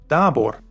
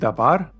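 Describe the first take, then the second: First: The last syllable has a rounded "o" vowel. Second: The last syllable has an open "a" vowel. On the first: The speaker calls it wrong. "and not dabor" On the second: The speaker calls it right. "you say dabar"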